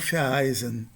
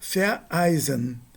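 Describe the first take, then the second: First: Ver links smoothly into eisen without a break. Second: A glottal break separates ver from eisen. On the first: The speaker calls it wrong. "e não vereisen" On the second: The speaker calls it right. "Tem uma, uma mini pausa com uh, som glotal aqui"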